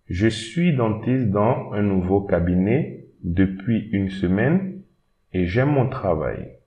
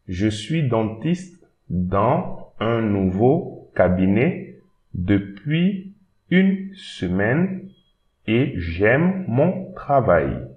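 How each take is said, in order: First: It is read at normal speed. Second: It is read slowly.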